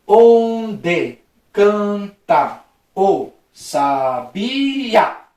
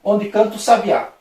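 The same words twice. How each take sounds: First: Very slow, every syllable of "Onde canta o sabiá" stretched apart; slow syllable-splitting demonstration. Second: Said in the usual way. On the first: Shown as a demonstration. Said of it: "vamos separar as sílabas normal". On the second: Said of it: "Aí na segunda".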